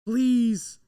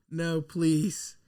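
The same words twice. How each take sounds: First: Louder desperate please; real desperate cry of please. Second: Said in the usual way. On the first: Real, not acted. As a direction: beg it out loud. Begging pick isn't Fields.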